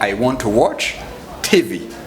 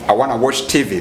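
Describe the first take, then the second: First: "Want to" is said as two full words. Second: "Want to" is reduced to "wanna". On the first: "in a good way"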